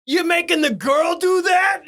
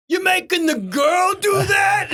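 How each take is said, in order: First: High heckling shout. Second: Slow, high heckling shout. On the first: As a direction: yell it from the truck. First telling of the heckle. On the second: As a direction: yell it across the lot. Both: Retold or imitated.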